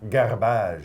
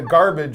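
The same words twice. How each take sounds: First: The word is said with a fancy French sound. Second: The word is said with a plain English sound. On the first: It sounds fancy. "If you want to make it fancy, you say garbage. ... I think it might be French" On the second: It is the ordinary way. "garbage is the way we say it in English"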